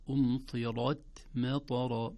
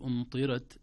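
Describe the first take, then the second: First: أمطرت with a full, heavy ر, slow; أمطرت slow, with a thick ر. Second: أمطرت with a thin, light ر; أمطرت with a light ر, the wrong way; wrong pronunciation. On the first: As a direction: weigh down the ر in أمطرت. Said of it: "تفخم الراء". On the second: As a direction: say أمطرت without giving the ر weight. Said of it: "لا نقول أمطرت". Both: Shown as a demonstration.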